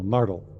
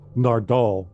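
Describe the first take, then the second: First: The stress is on the first syllable. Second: The stress is on the second syllable. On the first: This is the usual way of saying the name. "it's usually the accent on the first syllable" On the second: The whole name is said like a parent scolding. "the way the doctor said Nardle's name"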